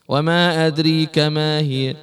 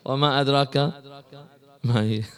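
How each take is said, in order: First: The long vowel in adrak leans toward ee. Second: The long vowel in adrak is a plain aa.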